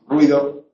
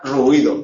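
First: The word is said in two syllables. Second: The word is said in three syllables. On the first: This is the everyday modern pronunciation. "hoy decimos ruido, dos sílabas" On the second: This is needed to keep the verse's syllable count. "cuando se recita, hay que recitar ruido"

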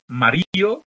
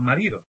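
First: The d between the vowels is dropped. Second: The d between the vowels is pronounced. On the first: "Tenemos también"

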